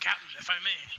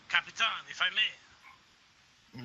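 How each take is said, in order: First: It is said in a normal voice. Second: It is said in a put-on pirate voice.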